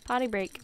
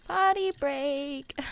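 First: Said in the usual way. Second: High, slow, drawn-out POTTY BREAK; playful singsong. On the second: Pretend. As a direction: stretch out both words in a higher playful voice.

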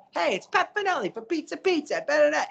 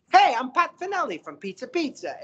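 First: Radio spokesman voice. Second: High, bright-sounding pitchman imitation of a radio ad guy; radio spokesman voice. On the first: Retold or imitated. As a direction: ham up the radio pizza guy, way up high. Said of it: "So he's like". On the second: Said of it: "And he's like".

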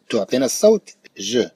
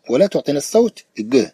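First: ج as a soft "zh", as in French "je". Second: ج as a hard "g", as in "go". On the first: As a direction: say ج with a soft buzzing "zh". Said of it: "في صوته الأصلي". (نطق ج جيمًا معطشة مثل "je") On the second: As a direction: say ج with a hard "g" stop. (نطق ج مثل الجيم المصرية) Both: Shown as a demonstration.

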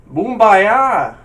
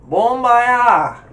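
First: [name] called out loud with "boom" as in English; loud, high "[name]" with an oo in the first syllable; first pronunciation attempt. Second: "[name]" in another accent, first syllable like "bon"; loud, high, accented BON-bah-yah; different accent. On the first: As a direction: belt out BOOM-bah-yah, falling at the end. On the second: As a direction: switch accent on "[name]", opening the first vowel to "aw". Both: Shown as a demonstration. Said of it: "you just said it with a different accent".

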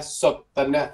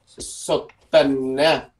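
First: Sotena said at normal speed, a little softer; quick model repeat. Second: Sotena said extremely slowly, syllable by syllable; slow model pronunciation. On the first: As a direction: say Sotena once more, lightly. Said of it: "Nó có một cái đuôi như thế này nha". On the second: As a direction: drag out Sotena for learners. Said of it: "Nó gọi là". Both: Shown as a demonstration.

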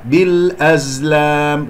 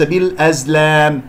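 First: بالأزلام slow, with a pure long "aa" in lam; correct open alif. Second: بالأزلام with the vowels thinned towards "lehm"; wrongly tilted alif. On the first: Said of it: "وليس". (نطق بالأزلام ببطء بألف غير مقللة) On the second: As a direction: bend the long a of بالأزلام to "eh". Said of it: "لا تقلل صوت الألف". (نطق بالأزلام خطأً بتقليل الألف) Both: Shown as a demonstration.

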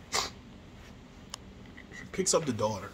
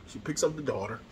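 First: Whispered slowly, almost breathless. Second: Said in the usual way. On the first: Shown as a demonstration. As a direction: hush it and stretch each word out. Repeats line, second time hushed.

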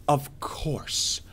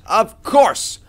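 First: Whispered, let-down afterthought; resigned whisper. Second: High, loud exasperation; exasperated outburst. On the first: Gamer finding nothing cooking, resigned whisper. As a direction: drop to a defeated whisper. Same words, dropped to whisper. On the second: Gamer finding nothing cooking, exasperated outburst. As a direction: burst out in frustration, pitch leaping. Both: Real, not acted.

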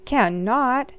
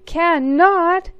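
First: Sister shouts him down, louder; sibling squabble, a firm louder Cannot; crying out, louder. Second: Much higher, louder Cannot; sister yells. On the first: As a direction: insist hard, louder. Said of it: "she cried". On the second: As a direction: top him with a shrill yell, much higher. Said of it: "she yelled". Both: Acted.

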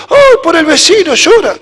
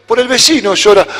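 First: Put-on higher, louder little-kid realization; child's voice. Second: Said in the usual way. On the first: Child repeats why dad cries, higher childlike wonder. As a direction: say it like a child who just understood.

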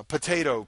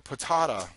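First: "potato" said po-TAY-to; "potato" in the usual American po-TAY-to; long-A potato. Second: "patata" said po-TAH-ta; playful po-TAH-ta for "patata"; broad-A potato. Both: Shown as a demonstration. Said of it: "You can say it either way".

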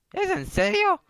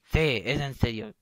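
First: Very high falsetto question; cartoonish girl's voice, incredulous; incredulous girl friend. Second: Said in the usual way. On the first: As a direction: squeak it in put-on disbelief. Girl reacts to coal.

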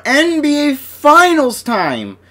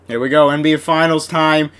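First: Much higher, slow, drawn-out announcer call; announcer hype. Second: Said in the usual way. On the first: Acted. Opening the finals for viewers, a slow high hype call. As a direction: sell it like an arena announcer.

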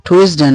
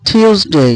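First: "টিউসডে" misread as tu-is-de; wrong pronunciation. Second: "টিউসডে" as high tyoos-dey; corrected pronunciation. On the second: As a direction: model "টিউসডে" higher, long final day. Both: Shown as a demonstration. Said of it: "টিউসডে না".

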